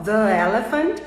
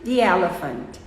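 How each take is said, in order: First: "the" as "thuh" before "elephant". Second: "the" as "thee" before "elephant"; long ee "the" into "elephant". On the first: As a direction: schwa "the", then "elephant". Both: Shown as a demonstration. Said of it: "Olha só".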